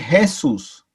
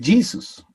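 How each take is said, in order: First: The name is pronounced with Spanish sounds. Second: The name is pronounced with English sounds. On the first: "o en español dice Jesús" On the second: "en inglés usted lee el nombre de acuerdo a lo que usted sabe leer y dice Jesus"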